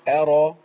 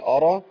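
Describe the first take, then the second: First: The opening hamza is light and thin. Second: The opening hamza is heavy and thick. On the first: The speaker calls it right. "الهمزة مرققة. أقول أرى" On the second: The speaker calls it wrong. "بقولش أرى"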